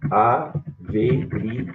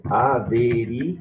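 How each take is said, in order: First: "averigue" with stress on the u, said a-ve-ri-GÚ-e, slowly; "averigue" pronounced a-ve-ri-GÚ-e, stress on the u; "averigue" drawn out slowly, u stressed as if written with an accent; accented pronunciation. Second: "averigue" with stress on the i, said a-ve-RI-gue; "averigue" pronounced a-ve-RÍ-gue, stress on the i; "averigue" said the way it sounds without the accent, stress on RI; unaccented pronunciation. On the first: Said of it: "Tem acento aqui, vai ficar". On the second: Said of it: "sem o acento, a pronúncia é". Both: Shown as a demonstration.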